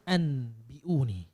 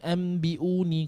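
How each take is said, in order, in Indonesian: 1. Bunyi n ada sebelum b. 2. Bunyi m ada sebelum b. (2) "Kalau kita baca cepat-cepat, lama-lama dia memang tutup"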